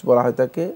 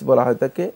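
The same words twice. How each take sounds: No difference in how they are said.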